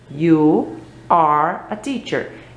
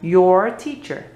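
First: Each word is said separately and carefully. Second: The words are run together quickly and fluently.

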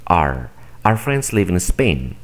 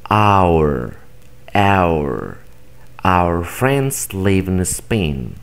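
First: The word 'our' is reduced to an r sound. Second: The word 'our' is said in full. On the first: This is everyday speech. "pronuncia como si estuvieras viendo una R" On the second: This is formal speech. "de manera correcta"

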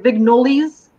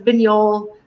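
First: The word ends with an audible s sound. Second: The word ends without an s sound. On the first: This is how many people commonly say it. The speaker calls it wrong. "like we hear Vignolis a lot" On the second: This is how the name is properly said. The speaker calls it right. "And it's Vignol"

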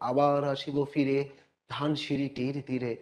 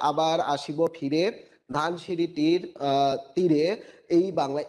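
First: The words flow together without breaks. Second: Each word is said separately with breaks.

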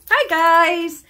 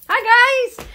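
First: It is said with calmer, toned-down enthusiasm. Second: It is said with very high enthusiasm.

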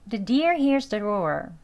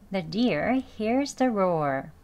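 First: The sentence is said fast. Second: The sentence is said slowly. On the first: "너무 빠르죠?" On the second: "속도는 천천히 발음 R은 약하게 할게요"

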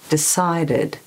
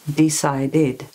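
First: Two syllables are short and unstressed. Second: All syllables have roughly the same length. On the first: "we've got two unstressed syllables in decided" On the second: "so you get all the syllables the same length"

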